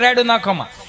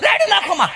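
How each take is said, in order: First: It is said once, in a plain everyday way. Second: It is said repeatedly, in an exaggerated dramatic way. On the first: It is an ordinary request at home. "એ આપણી આપણી ઘેરે ખાલી એટલું કે" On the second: It mimics a soap opera's over-the-top drama. "એની જગ્યાએ જો અનુપમમાં બોલ્યો તો"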